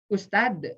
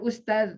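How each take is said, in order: First: The word ends with a d sound. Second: The word ends with a z sound. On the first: "Dengan da apa dengan za?" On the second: "Dengan da apa dengan za?"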